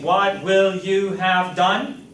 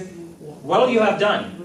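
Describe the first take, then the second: First: The words 'what will' are said fully and separately. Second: The words 'what will' blend into one contracted syllable. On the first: "instead of saying" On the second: "We can say"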